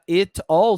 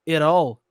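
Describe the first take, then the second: First: The t is a clear, separate t sound. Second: The t sounds like a quick r, linked. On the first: "Ao invés de falar it all" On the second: "Parece que tem um som de R"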